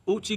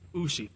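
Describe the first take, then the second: First: The middle consonant is a 'ch' sound. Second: The middle consonant is an 'sh' sound. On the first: The speaker calls it right. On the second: The speaker calls it wrong.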